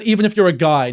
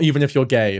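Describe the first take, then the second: First: "even if you're a guy" with a clear "a guy"; "you're a guy" spoken as two words, "a" then "guy"; clearly saying "a guy", not "gay"; said right. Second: "even if you're gay" with the "a" swallowed so "guy" sounds like "gay"; "you're gay" run together, no "a" before it; the misheard "gay" version. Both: Shown as a demonstration. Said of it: "that was just the accent".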